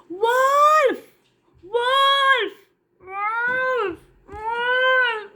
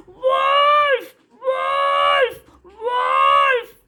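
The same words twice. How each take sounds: First: Put-on a bored shepherd boy crying wolf for a trick; false alarm cry. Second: High loud panicked shouts of wolf; a little boy screaming as wolves take the sheep; frightened cry. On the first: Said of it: "he started to cry". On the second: Acted. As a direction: scream for help, terrified. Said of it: "he was so frightened and he began to cry".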